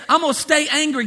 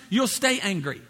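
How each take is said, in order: First: Higher-pitched, acted stubborn refusal; playing someone who refuses to budge; mock stubborn defiance. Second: Understated, unbothered verdict; God's matter-of-fact answer. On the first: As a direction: dig your heels in, pitched up. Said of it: "If you just stay". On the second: Acted. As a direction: answer calmly, letting them have their way. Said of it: "God says".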